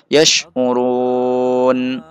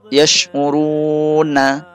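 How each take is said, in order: First: The word ends on n, long vowel before it. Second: The word ends with a short vowel. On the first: "Sehingga menjadi yash'urun" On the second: "Misalnya yash'uruna"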